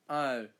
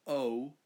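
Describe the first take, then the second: First: "Oh" in an exaggerated Australian accent; Australian pronunciation. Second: Said in the usual way. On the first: Shown as a demonstration. Australian showing how locals say "Oh", broad Australian accent. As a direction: bend the vowel of "Oh" into broad Australian. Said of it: "we say". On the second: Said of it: "And we don't say".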